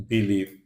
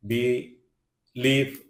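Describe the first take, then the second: First: Said in the usual way. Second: "believe" broken into two separate syllables; "believe" pulled apart for learners; split syllables. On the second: Shown as a demonstration. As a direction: say "believe" slowly, pausing between syllables. Word split by syllable, then whole.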